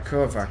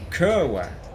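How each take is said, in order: First: The middle consonant is a 'v' sound. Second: The middle consonant is a 'w' sound. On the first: "because like it's a it's a V, isn't it? A W" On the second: "Is that how you pronounce it?"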